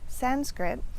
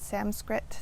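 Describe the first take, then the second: First: A plain n sound comes before skrit. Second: An m sound replaces the n before skrit. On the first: The speaker calls it right. "So it's Sanskrit" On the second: The speaker calls it wrong. "or an M"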